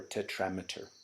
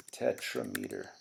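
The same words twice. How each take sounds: First: "tetrameter" said as teh-TRAM-uh-ter, short "a" in the stressed syllable; other pronunciation. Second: "tetrameter" said as teh-TRUH-mee-ter, stress on the second syllable, "mee" in the middle; one pronunciation. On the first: Teacher offers the alternative pronunciation, "tetrameter" as teh-TRAM-uh-ter. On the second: Teacher gives the first of two pronunciations, "tetrameter" as teh-TRUH-mee-ter. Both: Shown as a demonstration. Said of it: "or tetrameter".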